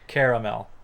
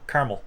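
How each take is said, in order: First: The word is said with three syllables. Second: The word is said with two syllables. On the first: "has three syllables and sounds something like caramel" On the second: "use only two syllables, pronouncing it something like caramel"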